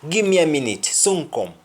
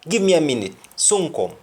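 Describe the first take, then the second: Both takes have the same delivery.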